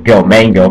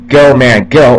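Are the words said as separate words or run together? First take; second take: run together; separate words. First: The words run together quickly as one. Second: Each word is said separately and distinctly.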